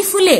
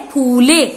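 First: फुले said higher with a short "u", like "phu-le"; wrong sound of फुले, first vowel cut short. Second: फूले with a drawn-out "oo", like "phoo-le"; right sound of फूले, first vowel long; correct long vowel. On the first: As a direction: keep the उ in फुले short and quick. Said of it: "ना कि फुले". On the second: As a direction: hold the बड़ा ऊ in फूले. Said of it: "सही आवाज कौन सी है?". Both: Shown as a demonstration.

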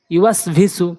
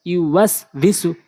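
First: Syllables joined together; quick reading. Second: Syllables spaced out; slow demo. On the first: Teacher showing learners the joined reading, quickly. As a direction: read it briskly as one word. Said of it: "দ্রুতটা উচ্চারণ করতে হবে". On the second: Teacher reading so learners can follow, slowly. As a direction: take the word slowly, part by part. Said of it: "slow বলছি এই জন্য". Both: Shown as a demonstration.

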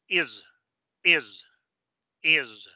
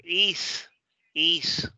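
First: Is con I corta y S sonora como Z; is nativo. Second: Is con I latina y S sorda silbada; is a la española. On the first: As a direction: haz vibrar el final de is. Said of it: "en pronunciación nativa". (is inglés terminado en zumbido) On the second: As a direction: di is como si leyeras en español. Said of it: "lo pronuncias así como se pronuncia la S en español". (is sin vibración en la S) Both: Shown as a demonstration.

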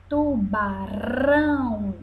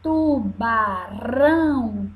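First: Tubarão with a soft single-tap R. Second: Tubarão with a light tapped R between vowels; soft R. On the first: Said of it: "Ouviram o som mais fraco?". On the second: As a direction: flick the R in Tubarão softly. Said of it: "se torna mais suave". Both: Shown as a demonstration.

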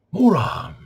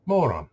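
First: Loud, high-pitched mocking jab; sarcastic George Carlin. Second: Restrained mock-AI insult. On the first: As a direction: throw the insult out, pitch jumping up and falling. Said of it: "I should talk like him". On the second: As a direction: say it evenly, as a talking AI would. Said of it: "trying to get the A I down".

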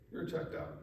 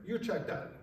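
First: "You're checked out" breathed as a whisper; whispered repeat. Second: Said in the usual way. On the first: Shown as a demonstration. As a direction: let the repeat drop to a hushed whisper.

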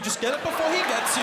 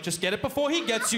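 First: High louder panicky repeat; frantic urging. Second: Higher nervous urging; hurry, find the switch; tense urging. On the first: Comic in dark room repeats the plea more frantically. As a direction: grab it now, panicking. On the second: Comic in dark room urges himself, mildly scared. Repeating plea while searching. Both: Retold or imitated.

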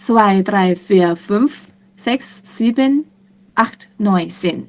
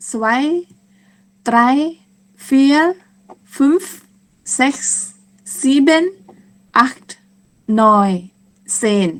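First: Quick counting. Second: Each number on its own, with pauses; slow counting. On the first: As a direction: run the numbers together. (นับเร็วๆ ต่อเนื่องกัน) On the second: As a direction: count slowly and deliberately for learners. (นับช้าๆ เว้นจังหวะทีละคำ) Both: Shown as a demonstration. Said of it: "ถ้านับเร็วๆ ก็จะเป็น".

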